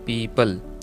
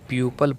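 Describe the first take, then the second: First: The first syllable sounds like 'pee'. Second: The first syllable sounds like 'pyoo'. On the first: The speaker calls it right. "It's correct pronunciation is पीपल" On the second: The speaker calls it wrong. "But ये गलत है"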